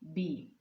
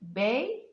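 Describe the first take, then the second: First: The syllable is said weakly with a reduced vowel. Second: The syllable is said strongly with a full vowel. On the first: "the weak sound would be B" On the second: "you pronounce it strongly"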